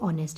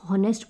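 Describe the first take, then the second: First: The word starts directly with a vowel sound. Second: The word starts with an audible h sound. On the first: The speaker calls it right. "वैसे ये ऑनेस्ट है" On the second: The speaker calls it wrong. "बहुत से लोग जिनको pronunciation नहीं पता वो उसको डेफिनेटली हॉनेस्ट पढ़ेंगे"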